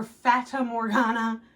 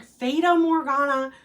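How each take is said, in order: First: Fata said FAT-uh, before Morgana; alternative pronunciation. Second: Fata said FAY-duh, before Morgana; alternative pronunciation. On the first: Gardener weighing the other option, Fata with a short A. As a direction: say Fata Morgana as "FAT-uh mor-GAH-nuh". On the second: Gardener unsure of the variety name, Fata with a long A. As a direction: say Fata Morgana as "FAY-tuh mor-GAH-nuh". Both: Shown as a demonstration. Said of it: "I don't know if it's".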